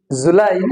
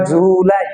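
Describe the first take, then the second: First: জুলাই with short ju, longer lai; quick ju, then draw out lai in জুলাই; correct July. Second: জুলাই with the stretch on ju; wrong July, as error. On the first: Teacher correcting the error, জুলাই with stretched lai. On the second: Teacher warning against an error, জুলাই with long ju. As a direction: drag the first syllable of জুলাই. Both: Shown as a demonstration. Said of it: "not জুলাই".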